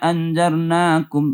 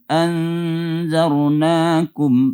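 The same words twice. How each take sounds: First: The n is short with no nasal hum. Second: The n is held with a nasal hum. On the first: The speaker calls it wrong. "jangan inna anzarnakum, enggak ada dengung-dengungnya" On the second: The speaker calls it right. "Seperti inna kan dengung"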